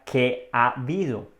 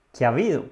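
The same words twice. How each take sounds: First: Palabras separadas. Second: "¿Qué ha habido?" rápido, con las palabras enlazadas; dicho rápido. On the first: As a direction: spell out "¿qué ha habido?" as three separate words. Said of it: "Pero en realidad esto significa". ("¿qué ha habido?" despacio, palabra por palabra) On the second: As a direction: di "¿Qué ha habido?" de corrido, como una sola palabra. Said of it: "Cuando lo dices rápido suena". ("¿Qué ha habido?" pronunciado rápido) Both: Shown as a demonstration.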